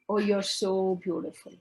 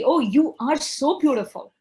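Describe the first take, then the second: First: The compliment sounds flat and insincere. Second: The compliment sounds warm and sincere. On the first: The speaker does not mean the compliment. The speaker calls it wrong. "I am saying, but I don't mean it" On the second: The speaker truly means the compliment. The speaker calls it right. "And there is a congruence"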